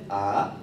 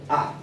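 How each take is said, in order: First: The pitch rises like a question. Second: The pitch is short and abrupt. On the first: "Segundo tono, que es ascendente" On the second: "El cuarto tono es seco"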